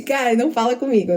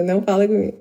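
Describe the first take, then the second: First: Tense focus. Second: Repeats não fala comigo through a laugh; não fala comigo said laughing, no longer tense. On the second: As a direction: lets the warning dissolve into a laugh. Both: Retold or imitated. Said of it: "É, tipo assim".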